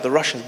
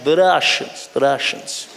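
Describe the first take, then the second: First: Said in the usual way. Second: Russian accent. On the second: Shown as a demonstration. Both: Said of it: "There's something about the Russians".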